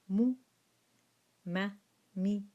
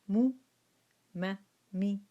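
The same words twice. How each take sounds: Both takes have the same delivery.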